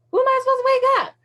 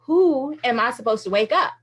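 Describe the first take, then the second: First: Put-on high, fast whine of an impatient child; much higher, quicker childlike complaint; frustrated kid. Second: Said in the usual way. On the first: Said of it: "it was almost like a kid". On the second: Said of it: "it got kind of frustrating".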